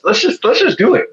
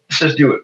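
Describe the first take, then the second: First: A high, eager push to just go for it; talking his wife into the move, eager and high; excited urging. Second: Said in the usual way. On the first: Retold or imitated.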